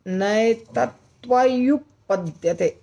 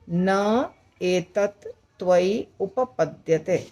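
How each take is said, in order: First: नैतत्त्वयुपपद्यते said slowly as one joined word; joined sandhi form. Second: न एतत् त्वयि उपपद्यते slowly, every word separated; split words. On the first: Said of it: "ऐसे बोलना होगा, बहुत कठिन है ये बोलना". (जुड़ा हुआ कठिन उच्चारण) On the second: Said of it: "अगर अलग-अलग बोलेंगे तो आसान होगा". (अलग-अलग शब्द धीरे-धीरे) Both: Shown as a demonstration.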